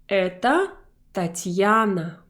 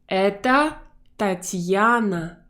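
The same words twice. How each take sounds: Both takes have the same delivery.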